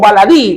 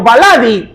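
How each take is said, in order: First: The stress falls on the final syllable. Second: The stress falls before the final syllable. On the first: The speaker calls it right. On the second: The speaker calls it wrong.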